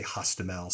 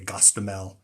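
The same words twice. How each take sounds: First: Hostomel with an H at the start; Ukrainian pronunciation. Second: Gostomel with a hard G at the start; Russian pronunciation. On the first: Showing how Ukrainians name the town, Hostomel with an H. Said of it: "the H gets a G sound". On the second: Showing how Russians name the town, Gostomel with a G. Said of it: "Russia, you would say". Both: Shown as a demonstration.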